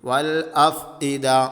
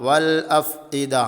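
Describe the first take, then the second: Both takes have the same delivery.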